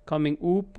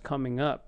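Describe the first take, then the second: First: The vowel in up is a full vowel. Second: The vowel in up is a relaxed uh. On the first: The speaker calls it wrong. "It's not coming up" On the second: The speaker calls it right. "It's just coming up"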